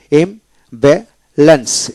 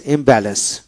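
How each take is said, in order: First: imbalance slowly as im, ba, lens; long gaps between the three beats of imbalance; split into syllables. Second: Said in the usual way. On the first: Shown as a demonstration. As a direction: pause after each syllable of imbalance. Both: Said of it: "তিনটে syllable".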